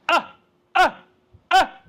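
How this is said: The voice is pressed, heavy and grunty. The speaker calls it wrong. "they overdo it. ... that's too grunty"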